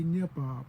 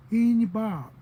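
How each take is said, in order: First: "nye bob" starting straight on "ny"; corrected dialect form. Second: "In bob" higher and much louder, leading "ee"; boy's dialect form. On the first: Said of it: "No, you say". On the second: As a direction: imitate the learner's emphatic "In bob". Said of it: "that's how you say". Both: Retold or imitated.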